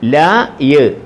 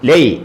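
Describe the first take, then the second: First: The two sounds are said slowly and separately. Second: The two sounds are run quickly together. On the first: The speaker calls it wrong. "ല യ് അങ്ങനെയല്ല" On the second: The speaker calls it right. "രണ്ടക്ഷരം പറയുമ്പോൾ സ്പീഡിൽ പറയും"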